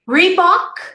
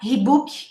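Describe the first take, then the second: First: The word starts with an English R sound. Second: The word starts with an H-like sound. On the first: The speaker calls it right. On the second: The speaker calls it wrong.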